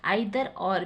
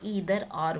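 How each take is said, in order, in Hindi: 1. Either की शुरुआत 'eye' ध्वनि से होती है। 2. Either की शुरुआत 'ee' ध्वनि से होती है। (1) "ज़्यादातर लोग आइदर और भी प्रोनाउंस करते हैं" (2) "एडवांस इंग्लिश में यूज़ करेंगे तो ईदर और बोल के"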